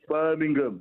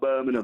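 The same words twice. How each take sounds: First: A hard G sound follows the 'ng'. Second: No hard G sound follows the 'ng'. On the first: The speaker calls it right. "It's Birmingham, ... I've got to put on the G" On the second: The speaker calls it wrong. "not Birmingham"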